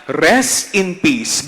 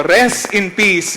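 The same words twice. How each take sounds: First: Said in the usual way. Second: "Rest in peace" again, higher, louder and slow; insistent repeat. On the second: Shown as a demonstration. Priest repeating it when the crowd won't answer, louder and insistent. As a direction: push it again, more forcefully. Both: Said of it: "Uulitin ko".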